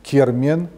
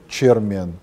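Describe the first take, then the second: First: The word starts with a k sound. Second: The word starts with a ch sound. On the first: This is the Digor dialect form. "в дегорском «к»" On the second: This is the Iron dialect form. "в иронском «ч»"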